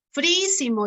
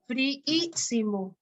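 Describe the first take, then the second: First: Said in the usual way. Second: "Fríísimo" slowly drawn out, the double í held; syllable by syllable. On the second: Shown as a demonstration. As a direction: sound out "Fríísimo" slowly for a class, splitting frí-í-si-mo. Teacher sounds out word's syllables.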